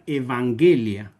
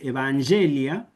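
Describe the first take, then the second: First: The g is sounded the way German speakers say it. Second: The g is sounded the usual church Latin way. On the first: German speakers pronounced it this way. The speaker calls it wrong. "cuando tocaban los cardenales alemanes, decían Evangelia" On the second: This is the expected pronunciation. The speaker calls it right. "en vez de decir Evangelia"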